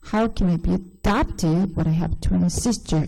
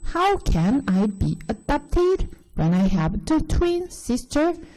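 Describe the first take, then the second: First: It flows smoothly with strong and weak stresses. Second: It is chopped up, pausing after each word. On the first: The speaker calls it right. "강세가 굉장히 다르죠" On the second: The speaker calls it wrong. "약간 이렇게 끊었을 거예요. 이제 단어 부분으로 거의 끊는 거예요"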